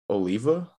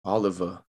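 First: Oliva said oh-LEE-vuh, long O and EE; first-try pronunciation. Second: Oliva said AH-luh-vuh, stress on the first syllable; corrected pronunciation. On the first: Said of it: "try and pronounce your last name". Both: Shown as a demonstration.

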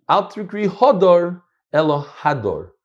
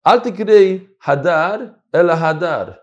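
First: Litvish Ashkenazi reading, Hadar then Hador with an o, slowly; Litvak reading. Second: Sephardi reading with Hadar said twice alike, slowly. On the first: Teacher shows the Litvak reading to his class, Litvish pronunciation. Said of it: "And this is my raya". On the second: Teacher shows how a Sephardi reads the verse, Sephardi pronunciation. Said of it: "How is a Sephardi gonna read this?". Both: Shown as a demonstration.

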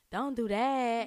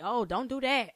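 First: Slower, lightly imitated rapper drawl; a hint of a rapper's style. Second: Said in the usual way. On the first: Shown as a demonstration. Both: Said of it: "in my cash doll voice".

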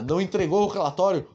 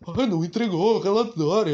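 First: Said in the usual way. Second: Mocking parrot of the complaint; a touch of sneering mimicry; sarcastic mimicking voice. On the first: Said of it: "imitar o que ela fala com uma voz sarcástica". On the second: Shown as a demonstration. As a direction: throw the words back sarcastically. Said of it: "com uma voz sarcástica".

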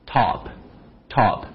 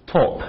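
First: American top. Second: British top. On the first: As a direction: top with a wide open ah, slowly. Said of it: "美国人可能嘴巴稍微大一点". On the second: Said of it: "英国人嘴巴可能小一点点". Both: Shown as a demonstration.

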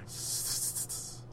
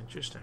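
First: Slow mock-sinister whisper of interesting; a drawn-out whispered interesting. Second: Said in the usual way. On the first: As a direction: breathe it out slowly like a villain. Repeats the word in a whisper.

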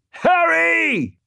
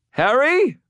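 First: Very high, stretched scream of the name; screamed warning. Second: High-pitched questioning call; anxious call. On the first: Thomas warns Harry of gunman behind him, high scream. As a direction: scream his name in alarm. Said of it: "Thomas screamed". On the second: Elaine checks on Harry amid ghouls, high urgent call. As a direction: call his name across the fight. Ally calls him amid the fight. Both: A narrator's reading.

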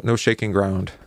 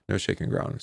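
First: Said in the usual way. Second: A hushed whispered repeat; whispered aside. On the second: Shown as a demonstration. Teacher repeating the point to the class in a whisper. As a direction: whisper it, half to yourself.

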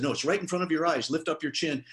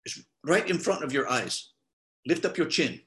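First: Said in the usual way. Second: Imitating a non-native English speaker's accent; bad foreign accent. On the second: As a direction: put on a clumsy foreign accent, unsure from where. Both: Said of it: "I'm sorry for a bad accent".

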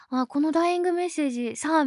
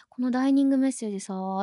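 First: Said in the usual way. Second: ダイニング said as dining, with ニ instead of イ; mispronounced word. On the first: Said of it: "みたいな言うテンションで". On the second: Retold or imitated. Friend earnestly says ダイニング for ダイイング, mispronounced. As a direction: say ダイニングメッセージ with a clear ニ in place of the イ. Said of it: "って言ってて".

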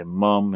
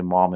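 First: "mum" the English way, uh in the middle; British "mum". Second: "mom" in the usual American way, ah in the middle. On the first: Explaining what England says, British "mum". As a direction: say "mum" with a short British uh vowel. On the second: Correcting what England says, American "mom". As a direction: say "mom" with an open American ah vowel. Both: Shown as a demonstration. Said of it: "if you go to England".

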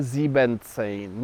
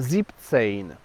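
First: "siebzehn" said with an extra syllable, as sieben-zehn; wrong full form. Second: "siebzehn" in two syllables, zip-tsejn; correct shortened form. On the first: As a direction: stretch "siebzehn" into three syllables, zie-ben-tsejn. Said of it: "to nie mówimy siebzehn". („siebzehn” błędnie, z pełnym sieben: zi-ben-cejn) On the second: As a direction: clip sieben down to "zip" in "siebzehn". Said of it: "liczebnik sieben skracany jest do formy sieb". („siebzehn” poprawnie, skrócone: zip-cejn) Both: Shown as a demonstration.

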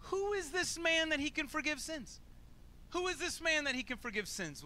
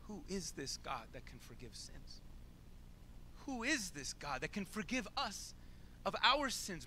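First: Higher, mocking disbelief in the question; sarcastic. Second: Quieter, earnest asking of Who is this God; sincere. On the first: Bystander mutters doubt about Jesus, sarcastic and scornful. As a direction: sneer it like a doubter in the crowd. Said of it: "talks under his breath sarcastically". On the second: Shown as a demonstration. Preacher asks the congregation to wonder sincerely. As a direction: ask it in real wonder. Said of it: "I dare you to ask that question seriously".

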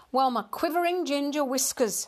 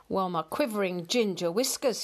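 First: High-pitched huffy exclamation; glaring indignation. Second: Understated huffy exclamation at everyday pitch; mildly puffed. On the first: Ignored cat glaring at man and kitten, indignant. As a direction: bristle with offended pride, pitched up. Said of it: "Hamish glared". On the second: Cat up a tree after fleeing, mildly puffed. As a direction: grumble it with only a touch of puff. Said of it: "he puffed". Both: A narrator's reading.

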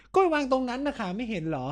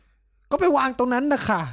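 First: Higher scornful reply; mock snippy nurse. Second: High, very slow sarcastic drawl; mock curt nurse. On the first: Friend replays nurse's rude reply to his question. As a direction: throw the line back like a rude nurse. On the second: Friend imitates nurse brushing off his question, sarcastic. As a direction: stretch the nurse's snippy answer.

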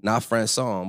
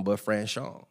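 First: "Franson" said with a plain s sound; "Franson", the misspelled version with s; wrong name. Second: "Franchon" said with sh, fra-SHON; "Franchon" with a soft sh in the middle; correct name. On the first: Streamer reading out the wrong spelling, "Franson" with s. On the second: Streamer correcting the boxer's name, "Franchon" with sh. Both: Shown as a demonstration. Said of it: "we gotta get the H and the accent".

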